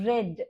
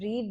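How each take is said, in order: First: The vowel is short, like 'red'. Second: The vowel is long, like 'reed'. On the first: It is the simple past tense. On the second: It is the present tense.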